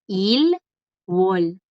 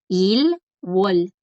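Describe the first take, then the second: First: The two syllables are said separately with a break. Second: The same.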